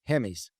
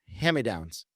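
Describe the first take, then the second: First: The phrase is squeezed together into two syllables. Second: Each word of the phrase is said separately. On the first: "I always said hammies"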